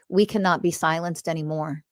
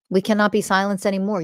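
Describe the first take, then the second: First: Said in the usual way. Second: Faster, punched "cannot"; emphatic repeat. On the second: Real, not acted. Podcast host to listeners, insisting defiantly, faster and firmer. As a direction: drive "cannot" home the second time.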